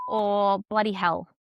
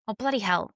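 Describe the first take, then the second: First: Australian swear. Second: Said in the usual way. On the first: Shown as a demonstration. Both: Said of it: "So I would say".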